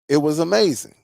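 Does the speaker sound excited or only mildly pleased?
mildly pleased. It is said with milder, flatter enthusiasm. The sound was good but less impressive. "You see the difference?"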